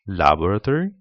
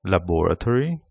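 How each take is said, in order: First: "laboratory" said la-BOR-a-tory, British way; British "laboratory", stress on the second syllable; British English. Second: "laboratory" said LAB-ra-tory, American way; American "laboratory", stress on the first syllable; American English. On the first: Teacher shows varieties, "laboratory" in British English. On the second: Teacher shows varieties, "laboratory" in American English. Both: Shown as a demonstration. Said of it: "different varieties".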